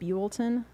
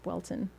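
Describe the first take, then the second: First: The first syllable sounds like 'fuel'. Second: The first syllable does not sound like 'fuel'. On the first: The speaker calls it wrong. "like fuel, like Fuelton" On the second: The speaker calls it right. "I found out it was Bwelton"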